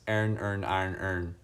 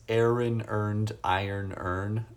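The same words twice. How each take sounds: First: "Aaron earn, iron earn" blurred into similar "ern" sounds; own accented pronunciation. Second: "Aaron earned, iron earn" with each word kept distinct; careful standard pronunciation. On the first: Streamer saying it like they do, accented pronunciation. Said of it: "when you say it like I do". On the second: Streamer showing they know the proper way, careful pronunciation. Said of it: "I know it's". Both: Shown as a demonstration.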